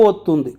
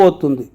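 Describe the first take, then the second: No difference in how they are said.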